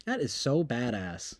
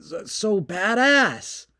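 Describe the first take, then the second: First: Low, soft flat so badass; deadpan. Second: Slow, higher gushing on badass; mock awe. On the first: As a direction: say it dry and unimpressed. Repeated flatly. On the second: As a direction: drag out so badass in fake amazement. Mock awe at war news.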